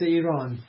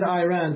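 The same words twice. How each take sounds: First: The name has a non-American pronunciation. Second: The name has an American pronunciation. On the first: This is how the name is really said. The speaker calls it right. "but it's Iran" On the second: This is how Americans say the name. The speaker calls it wrong. "America pronounced it Iran"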